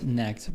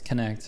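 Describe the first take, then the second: First: The K sound at the start is silent. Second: The K sound at the start is pronounced. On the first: The speaker calls it wrong. "I would have guessed necked" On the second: The speaker calls it right. "but it's connect apparently"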